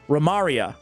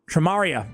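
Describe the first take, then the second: First: The name begins without a T sound. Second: The name begins with a T sound. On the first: "you don't pronounce the T" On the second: "Tremaria sounds better to me"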